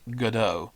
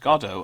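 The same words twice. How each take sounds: First: It is said the American way. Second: It is said the non-American way. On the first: The speaker calls it wrong. "as some of our American friends like to pronounce it" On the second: The speaker calls it right. "it's pronounced Godot"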